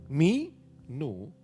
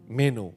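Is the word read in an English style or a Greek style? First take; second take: English style; Greek style. First: The word is read with English-style pronunciation. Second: The word is read with original Greek pronunciation. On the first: The speaker calls it wrong. "Jangan pakai bahasa Inggris. ... bukan begitu bacanya" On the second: The speaker calls it right. "Tapi me, meno"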